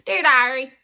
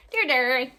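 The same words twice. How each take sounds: First: "Diary" said loud with a long I. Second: Loud "Diary" pronounced DAIR-ee; accented "Diary" as "dairy". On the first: Showing the podcast's intended name, "Diary" as DIE-ree. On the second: Showing the misspelt podcast name, "Diary" as DAIR-ee. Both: Shown as a demonstration. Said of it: "it got an accent to it".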